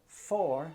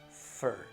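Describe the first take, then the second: First: The word is said with its full vowel. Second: The word is said with a weak schwa vowel.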